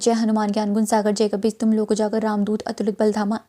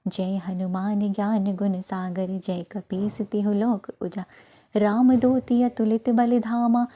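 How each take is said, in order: First: It is recited quickly and hurriedly. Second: It is recited slowly and rhythmically.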